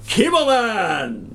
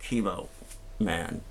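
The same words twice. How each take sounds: First: Slow, proud superhero announcement; drawn-out triumphant Chemo Man; heroic entrance. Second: Lower, softer, drained Chemo Man; deflated, quiet superhero call; worn-out hero. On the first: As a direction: burst in like a caped hero. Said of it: "I ran in like". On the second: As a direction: limp out exhausted after a long day. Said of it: "after eight hours of infusion". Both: Retold or imitated.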